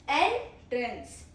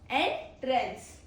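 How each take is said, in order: No difference in how they are said.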